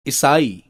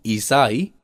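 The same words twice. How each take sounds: First: ईसाई with short first i; wrong vowel length. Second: ईसाई with long first ee; correct vowel length. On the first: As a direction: begin ईसाई on a quick short i. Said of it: "अशुद्ध शब्द है". (ईसाई को 'इसाई' बोलना) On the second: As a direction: draw out the opening of ईसाई. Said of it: "शुद्ध है". (ईसाई में लंबी ई) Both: Shown as a demonstration.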